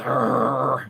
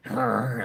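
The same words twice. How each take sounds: First: A loud rolling growl like a guard dog; imitated dog growl. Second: A quieter rolling growl, done again more lightly; softer dog growl. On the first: Owner shows the robot dog's growl, loud rolling growl. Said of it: "It goes". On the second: Retold or imitated. Owner repeats the robot dog's growl, a softer rolling growl. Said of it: "it goes like that".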